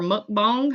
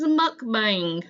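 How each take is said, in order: First: Mukbang said "muk-bong", with an open vowel; "bang" in Mukbang pronounced like "bong"; alternate pronunciation. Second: Mukbang said "muk-bang", with a flat A as in "hang"; "bang" in Mukbang like the English word; alternate pronunciation. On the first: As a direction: say Mukbang to rhyme its end with "song". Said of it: "Everybody says things different". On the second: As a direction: say Mukbang to rhyme its end with "sang". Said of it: "however you wanna say it". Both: Shown as a demonstration.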